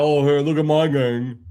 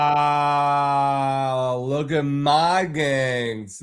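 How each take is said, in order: First: A light, slightly louder sneering take on the neighbour's boast; mocking the neighbour. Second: Slow, drawn-out scornful repeat; mocking echo. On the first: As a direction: parrot his smug brag with contempt. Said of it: "thinking he's got". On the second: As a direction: stretch it out to ridicule his boast. Echoing the neighbour's boast, mocking.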